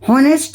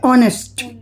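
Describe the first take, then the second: First: The word begins with an h sound. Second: The word begins with a vowel sound. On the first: The speaker calls it wrong. "हॉनेस्ट नहीं बोलेंगे" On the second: The speaker calls it right. "तो इसमें हा silent है"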